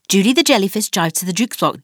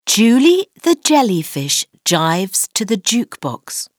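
First: The sentence is spoken at a very fast pace. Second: The sentence is spoken at a normal pace.

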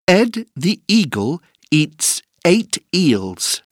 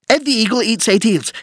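First: It is said at a slow pace. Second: It is said at a very fast pace.

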